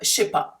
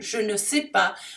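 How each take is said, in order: First: The little word ne is dropped completely. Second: The little word ne is pronounced in full.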